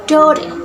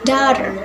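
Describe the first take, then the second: First: It is said in an Australian accent. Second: It is said in an American accent. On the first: "In Australian accents" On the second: "In American accents"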